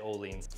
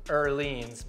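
First: The first vowel is an English 'oh' sound. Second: The first vowel is a rounded 'ur' sound. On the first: This is how it is said in the States. "over here in the States, we just say Ohlins" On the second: This is how it is said in Sweden. "the proper Swedish way is Ohlins"

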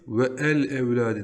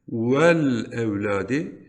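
First: The 'e' of 'el' is pronounced separately. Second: The 'e' of 'el' is dropped and linked. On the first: The speaker calls it wrong. "ve el evladi diye okunmaz" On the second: The speaker calls it right. "Vel evladi şeklinde okunur"

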